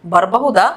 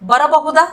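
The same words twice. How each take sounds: First: बरಬಹುದಾ contracted to "barbahuda"; lower-pitched बरಬಹುದಾ, said bar-ba-hu-da; local colloquial pronunciation. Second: Said in the usual way. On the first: Shown as a demonstration. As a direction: drop the middle a in बरಬಹುದಾ. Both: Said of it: "इसको हम local accent में बोलेंगे".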